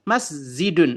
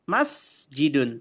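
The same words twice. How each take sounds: First: The middle consonant is a z sound. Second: The middle consonant is a j sound. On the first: "Yang ja dibaca dibaca za. ... Tapi kita baca masjidun" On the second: "Misal ini masjidun"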